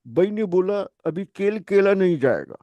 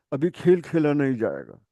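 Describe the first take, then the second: First: "বাই" and "কেল কেলা" with a plain unaspirated k and b, Pashtun-style; a light Pashtun Urdu, slightly higher, kh turned to k; mock Pashtun speaker dropping the aspiration in "কেল কেলা"; Pashtun accent. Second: "খেল খেলা" with an aspirated kh, in a plain voice; plain Urdu "খেল খেলা", kh aspirated. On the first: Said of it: "পশতুরা বলে, ওরা বলবে". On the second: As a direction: say "খেল" with a breathy kh, the usual way. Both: Shown as a demonstration.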